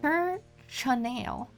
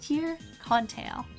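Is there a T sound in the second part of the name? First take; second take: no; yes. First: The second part of the name has no T sound. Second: The second part of the name has a T sound. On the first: This is how the name is written on the map. "it's called Tir-Chanel" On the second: This is the speaker's own habitual pronunciation. "There's no T in there, but I pronounce it as Tir-Contail"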